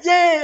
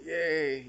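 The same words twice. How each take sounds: First: High, loud squeal of delight; a gushing teacher squealing yay; excited cheer. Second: Limp, softer yay with a little laugh; deadpan reply to a gushing teacher; unenthusiastic yay. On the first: Teacher cheers about the speech. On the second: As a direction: echo the cheer half-heartedly. His flat echo of teacher's cheer. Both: Retold or imitated.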